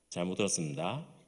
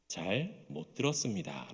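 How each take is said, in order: First: Some sounds begin to drop out of the phrase. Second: Every syllable is pronounced distinctly and carefully. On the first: A soldier one rank higher says it. "일병쯤 되면은 뭔가가 사라지기 시작합니다" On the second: The lowest-ranked soldier says it. "이등병 때는요, ... 또박또박 이야기를 합니다"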